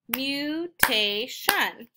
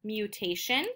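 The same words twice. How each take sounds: First: "mutation" in three slow, separated beats; syllable by syllable. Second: Said in the usual way. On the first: Shown as a demonstration. Teacher counting three syllables, "mutation" slowly split up. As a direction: split "mutation" as mu, tay, shun. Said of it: "That has three syllables". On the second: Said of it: "finding out how many syllables".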